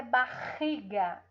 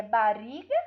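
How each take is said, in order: First: "barriga" with a throaty H-like R; guttural R in "barriga"; strong R. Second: "barriga" with a tapped R, like "bariga"; weak R. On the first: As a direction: rasp the double R in "barriga" at the back. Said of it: "É forte". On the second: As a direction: mispronounce "barriga" with a light tongue-tip R. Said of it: "É forte ou é fraco?". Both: Shown as a demonstration.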